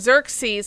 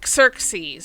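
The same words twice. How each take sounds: First: The name begins with a 'z' sound. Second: The name begins with a 'ks' sound. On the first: "instead of saying Xerxes" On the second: "they're trying to make the X sound like a x"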